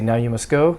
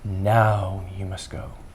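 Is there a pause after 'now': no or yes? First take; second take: no; yes. First: It flows straight through without a pause. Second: It pauses dramatically after the first word. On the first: A plain statement without special emphasis. "I could say now you must go, no comma" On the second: The timing is highlighted for dramatic effect. "if I'm reading this with some sort of dramatic emphasis"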